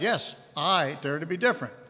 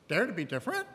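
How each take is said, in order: First: It sounds firm and determined. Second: It sounds doubtful and questioning.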